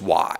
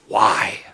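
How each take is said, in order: First: It is said flatly, as a plain question. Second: It is said with strong, incredulous disbelief. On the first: A simple request for a reason. "But they don't they don't say it like that" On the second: Writing such a book seems absurd. "It's always more like"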